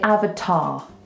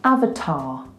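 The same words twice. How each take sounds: First: The final R sound is dropped, ending open. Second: The final R sound is dropped, ending open.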